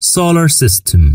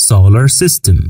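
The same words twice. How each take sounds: First: Slow model pronunciation. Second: Said in the usual way. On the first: Shown as a demonstration. Teacher modelling "Solar System" slowly for students. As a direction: say "Solar System" slowly, syllable by syllable, pitched higher. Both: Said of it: "والمجموعة الشمسية يعني".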